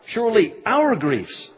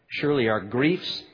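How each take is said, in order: First: The word our is stressed. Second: The word our is not stressed.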